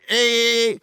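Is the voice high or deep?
high. It is said in a high voice.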